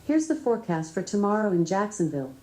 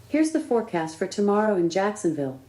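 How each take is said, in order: No difference in how they are said.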